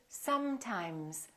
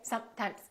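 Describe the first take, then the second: First: The s and m sounds are held long. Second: The s and m sounds are cut short. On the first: The speaker calls it right. "fully pronounce the continuant. So I want you to say sometimes" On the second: The speaker calls it wrong. "Don't say sometimes"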